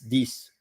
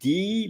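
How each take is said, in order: First: It ends with a clear final S sound. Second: It ends on the vowel with no final S. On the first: It makes clear that the number is meant. "but normally it's this to really uh, be aware that it's about the number" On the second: It could be mistaken for a different word. "you can say D"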